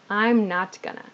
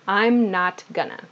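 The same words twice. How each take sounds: First: Going to is shortened to gonna. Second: Going to is shortened to gonna.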